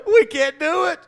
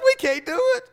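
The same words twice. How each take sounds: First: Higher, whiny hammed-up sob voice; mock crying coward; mock weeping soldier. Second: Much higher, rising hammed-up wail; mock wail of despair; mock wailing soldier. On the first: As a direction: play a grown soldier blubbering. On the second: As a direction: let the whine climb into a comic wail. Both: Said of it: "starts weeping and crying".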